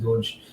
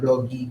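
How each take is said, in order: First: The word is said with one syllable, like 'dohj'. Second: The word is said with two syllables, like 'doggy'. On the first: The speaker says it this way. "but I, I pronounce it Doge" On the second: Other people say it this way. "there are some people who pronounce it do, uh, doggy"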